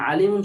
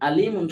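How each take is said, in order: First: It begins with a tight, throaty ain sound. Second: It begins with a light glottal stop. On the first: It means all-knowing. "আলিমুন শব্দের অর্থ হলো জ্ঞানী বা সর্ব সর্বজ্ঞ" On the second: It means painful. "আলিমুন শব্দের অর্থ হবে যন্ত্রণাদায়ক বা কষ্টদায়ক"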